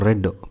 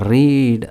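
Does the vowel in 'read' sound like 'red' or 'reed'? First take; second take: red; reed. First: The vowel is short, like in 'red'. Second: The vowel is long, like in 'reed'. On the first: It is the past tense. The speaker calls it right. "ಅದು ರೆಡ್ past ಟೆನ್ಸಲ್ಲಿ" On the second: It is the present tense. The speaker calls it wrong. "ರೀಡ್ ಅಲ್ಲ"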